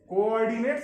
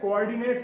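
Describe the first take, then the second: First: Every syllable of the word is said clearly. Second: The word is said quickly with syllables merged.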